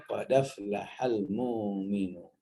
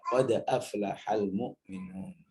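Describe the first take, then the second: First: "qad aflahal" run together as "qodaflahal", hamzah dropped; "qad aflahal mu'minun" with the fathah carried onto the dal; other tribe's reading. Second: Said in the usual way. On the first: Shown as a demonstration. Teacher contrasting the other tribe's "qad aflahal mu'minun". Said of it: "kelompok yang lain bacanya". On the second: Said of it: "bacanya normal seperti yang biasa kita baca".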